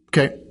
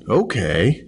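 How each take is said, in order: First: It is said fast and energetic. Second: It is said slowly, low energy.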